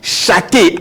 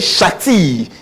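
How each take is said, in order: First: The word ends with an added ay vowel. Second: The word ends with an added ee vowel. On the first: "as people do mention. You can't do that" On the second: "We don't say shati"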